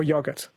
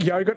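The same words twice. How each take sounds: First: "yogurt" said as YOG-urt; first vowel of "yogurt" as in "dog"; "yogurt" with a short O. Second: "yogurt" said as YOH-gurt; first vowel of "yogurt" as in "go"; "yogurt" with a long O. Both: Shown as a demonstration. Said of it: "what, yogurt or yogurt?".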